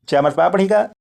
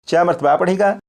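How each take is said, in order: No difference in how they are said.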